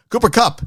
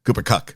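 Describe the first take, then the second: First: "Cooper Kupp" jumped higher, pushed out as a mock angry retort. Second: Said in the usual way. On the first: Shown as a demonstration. Host mimics the angry fan's reply, higher, mock angry.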